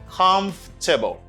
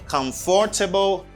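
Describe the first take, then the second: First: The middle syllable is dropped. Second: The middle syllable is fully pronounced. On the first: The speaker calls it right. "just say comfortable" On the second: The speaker calls it wrong. "Don't say comfortable"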